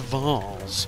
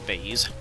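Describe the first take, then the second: First: The word is said in a posh way. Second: The word is said in an everyday way. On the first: The speaker wants to sound fancy. "if I want to feel fancy, then I pronounce it vase" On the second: This is the speaker's usual way of saying it. "I usually pronounce it vase"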